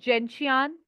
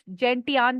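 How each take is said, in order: First: The middle consonant is a 'sh' sound. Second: The middle consonant is a 't' sound. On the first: This is the speaker's own pronunciation. "I pronounce is जेंशियान" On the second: Some other people say it this way. "कुछ जेंटियान भी बोलते हैं"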